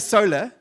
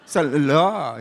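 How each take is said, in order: First: The word is said quickly at normal length. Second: The word is stretched out long and slow. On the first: It is said the ordinary way. "they don't say solar" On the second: The speaker is showing off being fancy. "It just gets longer and longer"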